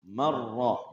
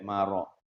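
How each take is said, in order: First: The r sound is held and doubled. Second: The r sound is short and single. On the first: The speaker calls it right. "Ingat rohnya tasydid" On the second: The speaker calls it wrong. "jangan sampai maro"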